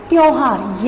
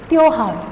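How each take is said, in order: First: त्योहार said with an au vowel, तौहार; wrong pronunciation. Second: त्योहार said with a clear o vowel; correct pronunciation. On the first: Teacher to students, showing the wrong au vowel in त्योहार. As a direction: demonstrate the wrong au sound in त्योहार. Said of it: "जो कि गलत है". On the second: Teacher to students, modelling त्योहार with o. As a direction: say त्योहार with the o sound, not au. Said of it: "यहाँ पे ओ की मात्रा आएगी". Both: Shown as a demonstration.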